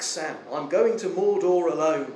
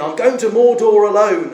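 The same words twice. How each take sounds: First: Said in the usual way. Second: "Mordor" hit louder and higher; insistent call. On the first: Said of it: "And Frodo yells back". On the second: Retold or imitated. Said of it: "Frodo says again".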